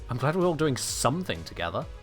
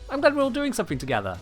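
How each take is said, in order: First: It sounds sarcastic and mocking. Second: It sounds sincere and warmly positive. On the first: The speaker is not actually happy about the group activity. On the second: The speaker is truly happy about the group activity.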